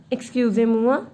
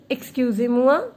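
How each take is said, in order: Both takes have the same delivery.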